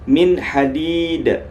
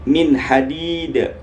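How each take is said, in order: Both takes have the same delivery.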